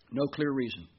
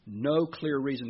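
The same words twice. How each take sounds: First: Said in the usual way. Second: No clear reason, slower and weighted on No; second time slower and firmer; slow emphatic repeat. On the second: Shown as a demonstration. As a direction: lean hard on No, drawn out.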